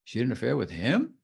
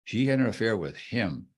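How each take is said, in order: First: Questioning rise on HIM; up inflection. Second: Firm falling HIM; stronger statement of fact. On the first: Teacher demonstrating inflection, rising on HIM. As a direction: swing "him" upward at the end. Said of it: "Up it goes". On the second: Teacher demonstrating inflection, firm fall on HIM. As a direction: state it firmly, dropping on "him". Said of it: "A stronger statement of fact". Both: Shown as a demonstration.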